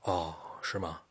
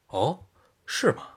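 First: It is said in a plain, neutral tone. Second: It is said in a delighted, gleeful tone.

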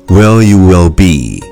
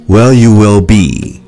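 Both takes have the same delivery.

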